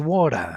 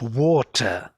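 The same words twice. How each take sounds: First: The middle t is soft and reduced. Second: The middle t is clear and sharp. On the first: "This t became water, like totally soft" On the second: "you don't say anymore in the American English water"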